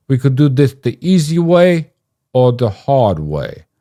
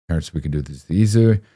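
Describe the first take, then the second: First: Loud, high, bad mock Italian accent; hammed-up Italian heavy, stretching the last words; Ted Cruz doing an Italian. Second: Said in the usual way. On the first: Threatening Terrence in a deliberately terrible Italian accent. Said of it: "impression of Ted Cruz doing an Italian". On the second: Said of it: "that wasn't my impression of an Italian".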